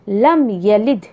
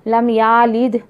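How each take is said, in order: First: The vowel after the y is kept short. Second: The vowel after the y is drawn out long. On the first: The speaker calls it right. "या के ऊपर ज़बर है तो ज़बर पढ़िए" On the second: The speaker calls it wrong. "ऐसा मत पढ़िए"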